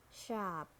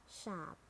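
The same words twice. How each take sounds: First: "sharp" with a sounded American R; American "sharp", curl the R before p; American accent. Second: "sharp" with a British silent R; British "sharp", said shahp; British accent. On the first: Teacher models sharp for learners, American accent. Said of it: "R in American English". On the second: Teacher models sharp for learners, British accent. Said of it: "in British English". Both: Shown as a demonstration.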